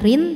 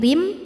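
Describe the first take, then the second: First: The syllable ends in a plain n sound. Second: The syllable ends in a nasal, held m sound. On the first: The speaker calls it wrong. "bukan rin" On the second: The speaker calls it right. "tapi rim sambil nahan dengung"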